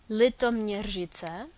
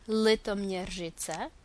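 No difference in how they are said.

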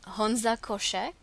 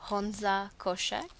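The two takes are said the same way.

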